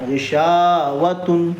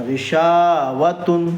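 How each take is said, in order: The two takes are said the same way.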